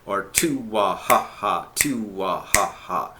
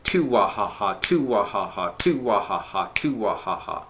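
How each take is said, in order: First: Slower "two wah ha ha", broken into chunks at the downbeat; slow down and break "two wah ha ha" at the downbeat; split into sections. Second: Said in the usual way. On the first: Shown as a demonstration. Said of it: "break it into sections where you have a downbeat". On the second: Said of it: "The other rhythm".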